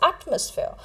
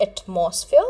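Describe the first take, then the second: First: "atmosphere" as AT-mus-feer; "atmosphere" with strong AT, weak middle; correct pronunciation. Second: "atmosphere" misstressed as ut-MOS-feer; "atmosphere" with weak first syllable, long MOS; wrong pronunciation. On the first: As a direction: stress the first syllable of "atmosphere", AT. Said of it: "but it is atmosphere". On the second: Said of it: "it is not atmosphere". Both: Shown as a demonstration.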